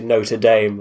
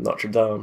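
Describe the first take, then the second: First: The name is said with an American pronunciation. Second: The name is said with a non-American pronunciation. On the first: "Americans call Notre... They say Notre Dame" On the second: "rather than Notre Dame"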